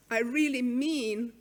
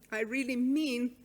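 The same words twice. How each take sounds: The two takes are said the same way.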